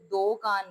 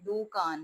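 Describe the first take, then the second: First: The first vowel sounds like o. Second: The first vowel sounds like short u. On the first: The speaker calls it wrong. "दो कान नहीं है" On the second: The speaker calls it right. "दू कान है"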